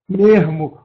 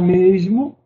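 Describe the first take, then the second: First: The s sound is replaced by an r sound. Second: The s sound is pronounced clearly. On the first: The speaker calls it wrong. "o S foi trocado pelo R" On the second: The speaker calls it right. "use o correto"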